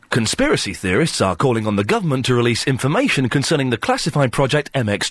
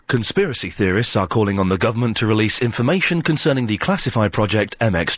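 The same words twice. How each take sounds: First: It is read in a neutral newsreader voice. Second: It is read in a grave, solemn voice.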